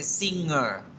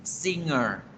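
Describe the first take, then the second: No difference in how they are said.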